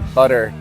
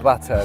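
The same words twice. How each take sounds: First: The middle t sounds like a soft d. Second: The middle t is a crisp t sound. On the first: "Americans like say butter" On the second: "instead of"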